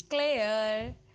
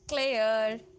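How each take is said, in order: No difference in how they are said.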